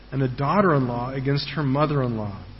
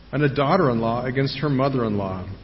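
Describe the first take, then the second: The two takes are said the same way.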